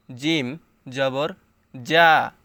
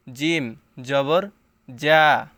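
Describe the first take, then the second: First: জিম জবর যা with a firm, hard জ; firm jim. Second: জিম জবর যা with a firm, hard জ, said slowly; firm jim. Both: Shown as a demonstration. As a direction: press the জ hard and short. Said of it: "শক্ত করে পড়তে হবে।".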